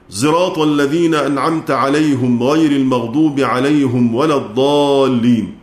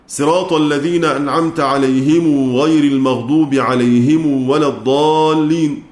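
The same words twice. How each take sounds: First: Sirat begins with an s blended toward z. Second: Sirat begins with a plain s sound. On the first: "خلفا عن حمزة بالإشمام وضم الهاء" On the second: "قنبل بالسين وصلة ميم الجمع"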